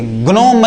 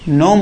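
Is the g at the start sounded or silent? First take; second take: sounded; silent. First: The word starts with a g before n. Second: The word starts with n; no g is heard. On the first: The speaker calls it wrong. "ग्नोम मत पढ़ना, गलत हो जाएगा" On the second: The speaker calls it right. "ये जी silent है"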